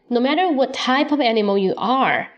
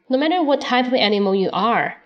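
Both takes have the same delivery.

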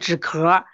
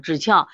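First: The second syllable gets its common everyday reading. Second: The second syllable gets its special medical reading. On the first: The speaker calls it wrong. "注意这不念枳壳" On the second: The speaker calls it right. "这是枳壳啊"

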